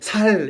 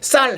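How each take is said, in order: First: The first consonant is a plain s sound. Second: The first consonant is a tense s sound. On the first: "그러면 살 이렇게" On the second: "쌀 한번 해봐"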